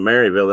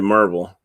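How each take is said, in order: First: The name starts with two syllables, 'Mary'. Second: The name starts with one syllable, 'Mer'. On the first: It marks the speaker as an outsider. The speaker calls it wrong. "If you say you ask somebody if they're from Maryville, they'll look at you like you got three heads" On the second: It is how locals say the name. The speaker calls it right. "You got to say Merville"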